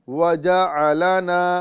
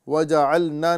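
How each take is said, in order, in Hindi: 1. ऐन और लाम की आवाज़ें अलग रखी जाती हैं। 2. ऐन की आवाज़ सीधे लाम में चली जाती है। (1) "बल्कि क्या कहेंगे" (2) "आइन को लाम से नहीं मिलाएंगे, वजअलना नहीं कहेंगे"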